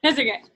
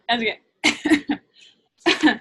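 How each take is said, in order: First: Said in the usual way. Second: Slow, laughing through the words; drawn out with a real laugh. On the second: Real, not acted. Reassures, breaks into laughter.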